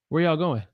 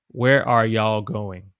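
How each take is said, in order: First: It is fast, dropping are and contracting y'all. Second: You all is contracted to y'all. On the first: "if I say it faster, natural English for me would be" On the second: "But when I say it"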